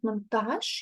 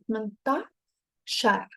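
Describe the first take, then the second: First: The word ends without a final r sound. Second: The word ends with a final r sound. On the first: It is the bare number. "Instead of saying ثمنتاش" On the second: It counts things that follow. "so you add R"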